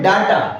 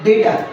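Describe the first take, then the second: First: The word is pronounced the Hindi way. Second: The word is pronounced the English way. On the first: "Hindi में बोलते हैं डाटा" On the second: "ये होता है आपका डेटा"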